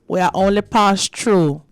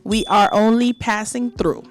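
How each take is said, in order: First: It is said in a patois accent. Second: It is said in a standard English accent.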